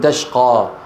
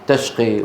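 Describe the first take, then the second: First: The word is said the Quraysh way. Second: The word is said the non-Quraysh way. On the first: The Quraysh tribe says it this way. "يقولون" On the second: "قريش ما تقول"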